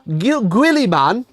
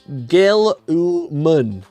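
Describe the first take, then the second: First: The last syllable sounds like 'man'. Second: The last syllable sounds like 'mun'. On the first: The speaker calls it wrong. "So it's not even man" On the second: The speaker calls it right. "it's mun"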